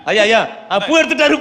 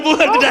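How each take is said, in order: First: Relieved excitement. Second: Said in the usual way. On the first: Acted. Relieved the landlord took flower.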